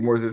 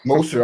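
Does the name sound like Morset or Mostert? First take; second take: Morset; Mostert. First: The name is said as Morset. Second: The name is said as Mostert. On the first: The speaker calls it wrong. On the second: The speaker calls it right.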